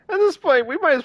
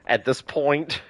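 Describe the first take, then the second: First: A sudden mock-squeaky "At this point"; high comic squeak on "this", falling at the end. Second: Said in the usual way. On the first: Repeats the phrase, first take squeaked.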